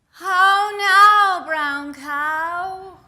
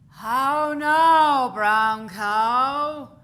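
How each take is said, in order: First: It is said in a high-pitched voice. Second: It is said in a lower, deeper voice.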